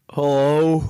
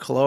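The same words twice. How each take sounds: First: Lazy, slurred phone greeting; slurred hello. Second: Lightly slurred hello, mostly plain; a hint of a lazy drawled hello. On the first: Retold or imitated. Jay answering the phone, slurred hello. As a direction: slur the hello like a stoner picking up. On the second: Shown as a demonstration. Retelling Jay's phone greeting, mildly slurred. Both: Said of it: "It's kinda slurred".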